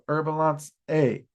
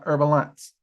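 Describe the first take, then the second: First: The name ends with an extra final vowel. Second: The name ends without an extra final vowel. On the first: This is the proper, formal name. The speaker calls it right. "Her proper name ... is Herbalance. So Herbalance A" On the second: This is the familiar, shortened name. The speaker calls it wrong. "not Herbalance"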